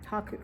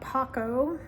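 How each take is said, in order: First: The name ends with an 'oo' vowel. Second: The name ends with an 'oh' vowel. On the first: The speaker calls it right. "but it's Haku" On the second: The speaker calls it wrong. "not Hako"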